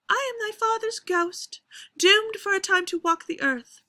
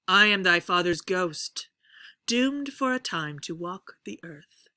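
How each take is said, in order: First: The pitch stays high throughout the whole line. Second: The pitch starts low and rises across the line. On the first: "if it's all spoken up in a high pitch" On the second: "I'm going to start uh, low and I'm going to raise the pitch as we go"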